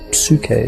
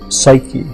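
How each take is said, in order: First: The word has an ancient Greek pronunciation. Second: The word has a modern English pronunciation. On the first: "the name was Psyche in Greek" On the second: "is how we pronounce it now"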